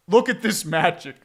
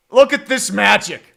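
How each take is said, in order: First: Said in the usual way. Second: Louder mocking announcement; loud ironic admiration; sarcastic praise. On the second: Real, not acted. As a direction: jeer at the bad offense. Mocking the team's offense.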